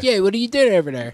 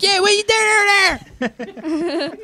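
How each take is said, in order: First: Quick Philly line, louder and higher; Philly accent. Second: Much higher, squeaky filtered Philly line; filtered silly voice. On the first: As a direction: toss off a Philly Yeah, what are you doing. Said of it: "the Philly accent's a Pennsylvania Dutch". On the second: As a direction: sound like a video filter pitched way up. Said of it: "We'll throw filters on it". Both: Retold or imitated.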